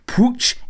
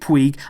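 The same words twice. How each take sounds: First: The name is said with a Catalan pronunciation. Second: The name is said with an anglicized pronunciation. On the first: "It's Riqui Puig in Catalan" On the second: "So I've stuck with Puig"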